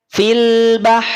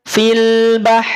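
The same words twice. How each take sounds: Both takes have the same delivery.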